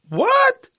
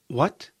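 First: It sounds sarcastic and incredulous. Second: It sounds like a puzzled, genuine question. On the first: The listener thinks the idea is crazy. "the tone will indicate a sarcasm in this case. Are you crazy?" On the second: The listener did not understand the question. "The first one is a question I didn't understand"

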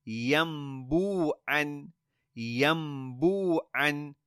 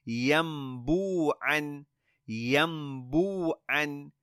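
The two takes are said the same way.

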